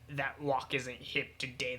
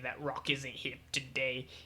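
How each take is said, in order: First: The word after 'that' starts with a W sound. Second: The word after 'that' starts with an R sound.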